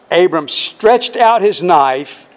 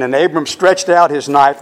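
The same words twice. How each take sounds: First: "out" leaned on, each word spaced slowly; slow it down and press on "out"; slow, weighty reading. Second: Said in the usual way. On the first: Shown as a demonstration. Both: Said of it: "Now this is very important".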